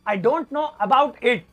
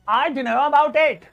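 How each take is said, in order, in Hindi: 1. हर शब्द अलग और पूरा बोला जाता है। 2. शब्द छोटे करके आपस में जोड़कर बोले जाते हैं।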